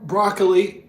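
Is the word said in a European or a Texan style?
Texan. It is said in a casual Texan-style pronunciation. "when I was a little Texan kid, I would pronounce it broccoli"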